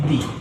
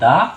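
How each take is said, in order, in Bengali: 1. শব্দটি 'ee' স্বরধ্বনি দিয়ে শেষ হয়। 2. শব্দটি 'ah' স্বরধ্বনি দিয়ে শেষ হয়। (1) "যদি কোনো ওয়ার্ড ভাওয়েল দিয়ে শুরু হয় তাহলে তার উচ্চারণ করব দি" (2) "যদি কোনো ওয়ার্ড কনসোনেন্ট দিয়ে শুরু হয় তাহলে তার উচ্চারণ করব দা"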